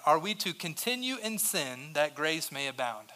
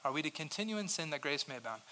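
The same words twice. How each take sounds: First: Said in the usual way. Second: Quiet repeat. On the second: Acted. Repeats question much softer.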